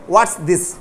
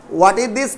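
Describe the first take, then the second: First: "What's" as one syllable, lower pitched; contracted what's. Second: Said in the usual way. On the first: Shown as a demonstration. Teacher answers own question for students, contracted "What's". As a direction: run "What's" into this. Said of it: "What is this को क्या बोलेंगे". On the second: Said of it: "को क्या बोलेंगे".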